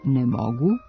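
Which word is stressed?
mogu. The accent falls on "mogu".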